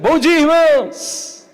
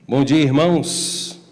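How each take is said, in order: First: It is said with much more energy. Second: It is said calmly, with ordinary energy.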